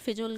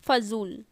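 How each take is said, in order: First: The first syllable has an 'i' vowel. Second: The first syllable has an 'a' vowel. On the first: The speaker calls it wrong. "गलत है ये" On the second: The speaker calls it right. "वो होता है फजूल"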